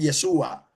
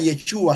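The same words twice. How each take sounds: First: The middle consonant is a plain s sound. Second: The middle consonant is an sh sound. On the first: This is how one tribe said it. "sino Yeshua" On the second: This is how most speakers said it. "ellos no dirían nunca Yeshua"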